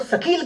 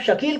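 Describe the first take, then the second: First: The word starts with an 's' sound. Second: The word starts with a 'sh' sound. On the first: It changes the meaning. "सकील कह देंगे" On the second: It means good-looking. "अगर आप शकील को सकील कह देंगे"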